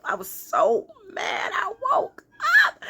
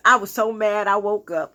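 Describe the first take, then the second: First: Hammed-up whine. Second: Said in the usual way. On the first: Woman mad at waking from her dream, mock wail.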